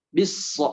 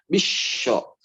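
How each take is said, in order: First: The middle consonant is a plain s sound. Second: The middle consonant is an sh sound. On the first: The speaker calls it right. "Yang tepat itu patokannya S ya" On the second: The speaker calls it wrong. "bukan jadi bisyo"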